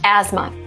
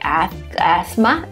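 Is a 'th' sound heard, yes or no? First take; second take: no; yes. First: No 'th' sound is heard in the middle of the word. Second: A 'th' sound is heard in the middle of the word. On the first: The speaker calls it right. "No, asthma. So in this case, we have silent T and silent H" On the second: The speaker calls it wrong. "you might be confused because they have TH there"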